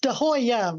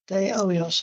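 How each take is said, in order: First: The name ends without an s sound. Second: The name ends with an s sound. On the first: The speaker calls it wrong. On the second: The speaker calls it right.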